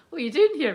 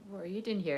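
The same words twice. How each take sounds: First: Said in the usual way. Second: Intense, vulnerable. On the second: Retold or imitated. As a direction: ask it hushed, as if exposed. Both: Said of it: "even the way I said it".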